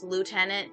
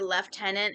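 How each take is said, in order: First: It is said with an American pronunciation. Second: It is said with a British pronunciation. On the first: "In the U S, it's" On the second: "In the U K, you say"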